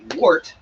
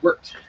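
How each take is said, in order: First: The vowel sounds like the one in 'wart'. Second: The vowel sounds like the one in 'wert'. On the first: The speaker calls it wrong. "it's actually not pronounced wart" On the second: The speaker calls it right. "it's pronounced wort"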